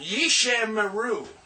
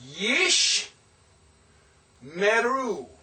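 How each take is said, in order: First: A short vowel is heard after the sh sound. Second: No vowel is heard after the sh sound. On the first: The speaker calls it wrong. "It's not Yishe Meru" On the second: The speaker calls it right. "The first one is silent. Let me show you"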